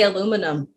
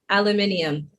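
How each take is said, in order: First: It is said with fewer syllables, American style. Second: It is said with an extra syllable, British style. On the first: "we just say aluminum" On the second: "it's hard to say even"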